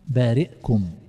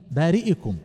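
First: The glottal stop is followed by no vowel. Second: The glottal stop is followed by an i vowel. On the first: "الإسكان هنا هذه قراءة أبي عمرو" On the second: "بارئكم لأنها مجرورة"

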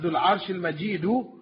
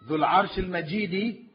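First: The last word ends with a u vowel. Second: The last word ends with an i vowel. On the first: The owner is called glorious. "Dhul Arsh al-Majidu, the glorious owner of the throne" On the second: The throne is called glorious. "Dhul Arsh al-Majidi, the owner of the glorious throne"

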